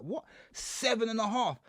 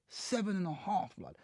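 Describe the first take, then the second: First: Slow, higher gasp of disbelief; can't believe the number you just heard; shocked disbelief. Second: Slow, much softer, numb; stunned and quiet. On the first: Man hearing his prison sentence in court, shocked disbelief. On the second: Man staring at the judge after sentencing, stunned and quiet. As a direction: say it flat to his face, still taking it in. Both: Retold or imitated.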